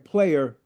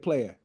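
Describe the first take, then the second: First: The word ends with an 'er' sound. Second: The word ends with an 'ah' sound. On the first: "instead of saying player" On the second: "we say player"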